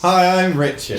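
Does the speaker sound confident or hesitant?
confident. It is said in a more confident way.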